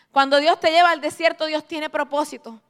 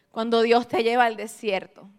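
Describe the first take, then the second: First: Emphatic repeat. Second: Said in the usual way. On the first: Shown as a demonstration. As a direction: drive the point home with a laugh.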